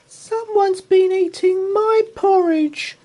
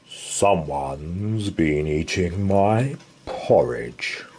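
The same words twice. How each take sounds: First: It is squeaked in Baby Bear's voice. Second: It is growled in Father Bear's voice.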